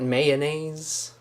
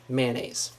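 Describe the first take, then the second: First: The word is said with three syllables. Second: The word is said with two syllables. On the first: "Not mayonnaise" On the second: "Two syllables for me"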